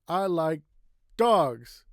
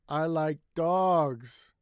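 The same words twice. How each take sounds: First: One word is said noticeably louder. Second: One word is stretched out longer. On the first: "You can say it louder" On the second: "Another way is to make it longer"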